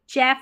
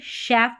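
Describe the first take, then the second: First: The word starts with a ch sound. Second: The word starts with an sh sound. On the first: The speaker calls it wrong. "यहाँ पर इसको चैफ नहीं पढ़ते" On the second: The speaker calls it right. "शैफ पढ़ते हैं C H को श"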